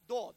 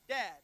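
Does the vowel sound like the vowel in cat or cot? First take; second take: cot; cat. First: The vowel is like the one in cot. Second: The vowel is like the one in cat. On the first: This is how the original speakers say it. "But the Hebrews pronounce Dod" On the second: This is how English speakers say it. "We would pronounce it Dad"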